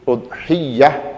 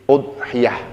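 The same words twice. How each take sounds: First: The y sound is held long and doubled. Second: The y sound is short and single. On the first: "ya-nya di tasydid" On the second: "dengan tidak di tasydid"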